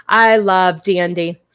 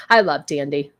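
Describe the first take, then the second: First: "I love Dandy" slower and louder; slow, louder affectionate repeat; slow fond. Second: Said in the usual way. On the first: Shown as a demonstration. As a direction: drag "I love Dandy" out fondly.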